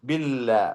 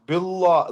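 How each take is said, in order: First: The L sound is light and thin. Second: The L sound is heavy and dark. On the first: The speaker calls it right. "ലാമിന്റെ സൗണ്ടിലാണ് അത് ഉച്ചരിക്കുക" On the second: The speaker calls it wrong. "തഫ്ഹീം ചെയ്ത് ഉച്ചരിച്ചാൽ അത് ശരിയാവൂല"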